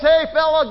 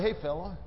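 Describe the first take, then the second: First: It is called out loudly. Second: It is murmured quietly. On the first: The speaker is not afraid to be seen taking a risk. The speaker calls it right. "he calls out with a loud voice" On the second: The speaker hopes nobody notices if nothing happens. The speaker calls it wrong. "He doesn't murmur and say"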